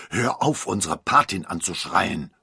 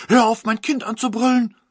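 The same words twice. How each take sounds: First: Father calling out. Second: High, loud angry yell; mother shouting. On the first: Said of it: "rief der Vater". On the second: The mother yells at the godmother, high and loud. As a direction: yell back to protect the child. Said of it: "rief die Mutter". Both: A narrator's reading.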